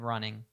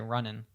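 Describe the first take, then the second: First: The final g sound is pronounced. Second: The final g sound is dropped.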